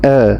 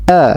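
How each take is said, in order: First: The vowel is half-opened and held back. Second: The vowel is opened a medium amount. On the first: The speaker calls it wrong. "atau nanggung seperti orang yang tidak mau berbicara" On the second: The speaker calls it right. "Jadi fathah itu pertengahan"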